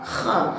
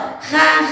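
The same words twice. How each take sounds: First: The sound is thick, with the tongue back raised. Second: The sound is thin, with the tongue back low. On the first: The speaker calls it right. "kha juga terlafazkan dengan suara yang tebal" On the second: The speaker calls it wrong. "Tidak boleh terlafazkan dengan suara yang tipis"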